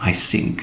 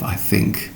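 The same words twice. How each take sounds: First: It is said with a German accent. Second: It is said with a standard English accent. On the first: The speaker calls it wrong. "German officers saying" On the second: The speaker calls it right. "instead of"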